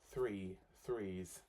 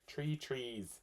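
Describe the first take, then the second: First: The th sounds are fully pronounced. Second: The th sounds are said as plain t.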